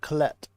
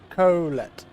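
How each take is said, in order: First: It is said quickly without first-syllable stress. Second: The stress is strongly on the first syllable. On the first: It sounds like the familiar name. "I guess it's like said fast" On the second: It sounds like a statement, not a name. "So massive emphasization on on the Co"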